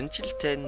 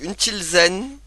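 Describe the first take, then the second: First: The last syllable begins with a t sound. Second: The last syllable begins with a z sound. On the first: "je disais Untilten, moi, je crois. Comme le Ten de, de dix" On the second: "on va dire euh, Zen"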